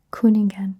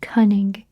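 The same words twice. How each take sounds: First: Said in the usual way. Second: "Cunningen" starting like English "cunning", then "gen"; memory-aid pronunciation. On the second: Shown as a demonstration. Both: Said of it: "I always think of".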